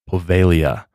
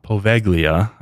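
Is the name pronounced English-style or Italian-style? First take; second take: Italian-style; English-style. First: The name has a native Italian pronunciation. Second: The name has a literal English-reader pronunciation. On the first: The speaker calls it right. "That is Poveglia" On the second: The speaker calls it wrong. "Not Poveglia, like it looks spelled"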